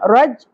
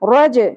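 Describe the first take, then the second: First: The final j stops flat without a bounce. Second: The final j is released with a bounce. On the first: The speaker calls it wrong. "رج نہیں پڑھنا" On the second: The speaker calls it right. "جیم ساکن پہ قلقلہ ہوگا"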